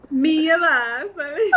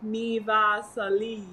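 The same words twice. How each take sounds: First: Laughing, stretched Mi Vasali with an Italian ring; slow mock-Italian Mi Vasali. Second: Slow, stretched Mi Vasali; drawn out. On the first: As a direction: give it an Italian lilt through laughter. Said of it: "It all sounds Italian no matter what". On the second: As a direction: say Mi Vasali longer. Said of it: "Maybe you have to say it longer". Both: Shown as a demonstration.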